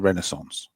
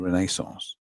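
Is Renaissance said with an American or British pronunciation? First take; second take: American; British. First: It is said with an American pronunciation. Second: It is said with a British pronunciation. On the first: "to to the Americans it was the Renaissance" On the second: "Why do you say it like that?"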